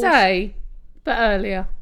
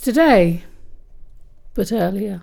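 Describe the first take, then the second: First: There is no clear pause after 'today'. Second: There is a long pause after 'today'. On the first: The speaker calls it wrong. "then I forgot the pause" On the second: The speaker calls it right. "I think the pause was a little bit too long"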